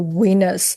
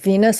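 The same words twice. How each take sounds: First: The word begins with a W sound. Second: The word begins with a V sound. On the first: The speaker calls it wrong. "I'll say" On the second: The speaker calls it right. "Instead of saying"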